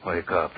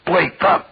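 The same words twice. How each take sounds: First: Said in the usual way. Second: "Wake up!" screamed much higher and louder; husband screaming "Wake up!" at his silent wife; furious shout. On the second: Acted. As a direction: blast "Wake up!" right at her face.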